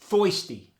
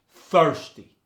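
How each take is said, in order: First: The first vowel sounds like 'oi' without R. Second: The first vowel keeps a hard R sound. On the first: "You get the E R turning to the oi sound" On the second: "you just keep the hard R in the word"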